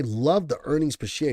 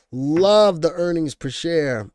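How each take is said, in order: First: Said in the usual way. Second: Love hit hard, louder and slow; louder, slower insistent restatement; emphatic repeat. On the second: Real, not acted. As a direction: lean on "Love the earnings per share" with full force. Repeats phrase, second take punched.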